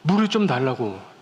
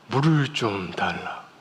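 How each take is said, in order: First: It is said in an urgent, desperate manner. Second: It is said in a solemn, holy manner.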